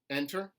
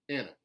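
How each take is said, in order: First: The stressed vowel sounds like eh. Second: The stressed vowel sounds like ih. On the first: "Standard American eh" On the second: "contemporary Southern I"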